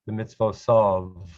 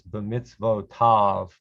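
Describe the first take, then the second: First: It is said with an Ashkenazi pronunciation. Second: It is said with a non-Ashkenazi pronunciation.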